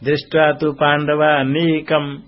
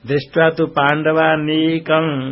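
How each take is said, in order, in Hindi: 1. ओष्ठ बंद हो जाते हैं, जिससे अनुनासिक ध्वनि म जैसी हो जाती है। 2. अनुनासिक ध्वनि बिना ओष्ठ बंद किए बनाई जाती है।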